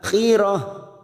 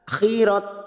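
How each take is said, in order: First: The word ends with a soft h sound. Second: The word ends with a t sound. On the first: The speaker calls it right. "ini kita baca huruf h" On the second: The speaker calls it wrong. "bukan khirat"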